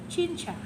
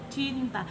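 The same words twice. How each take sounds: First: The consonant before the last vowel sounds like ch. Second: The consonant before the last vowel is a clear t. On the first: The speaker calls it wrong. "mereka bilang cinta. Itu salah" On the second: The speaker calls it right. "Kata itu dibaca cinta"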